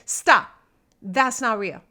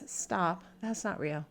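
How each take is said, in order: First: It is said loudly and forcefully. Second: It is said softly and plainly. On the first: "I will say in that kind of volume" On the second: "You might be someone who just says"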